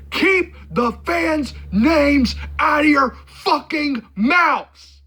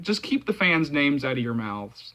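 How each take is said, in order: First: High, slow yell, word by word; hammed-up outraged shout, stretching each word; mock furious yell. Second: Said in the usual way. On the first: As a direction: yell it like a famous outburst, drawn out. Yelled quote of a known reference.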